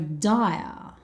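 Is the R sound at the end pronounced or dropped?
dropped. The final R sound is dropped. "Australians don't tend to pronounce the letter R"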